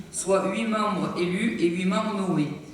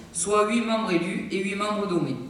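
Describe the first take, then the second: The two takes are said the same way.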